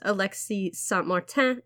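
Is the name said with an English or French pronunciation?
French. The name is said with a French pronunciation.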